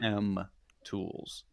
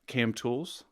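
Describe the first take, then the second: First: The letters K and M are said clearly apart. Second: The letters K and M run together into one word. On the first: The speaker calls it right. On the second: The speaker calls it wrong.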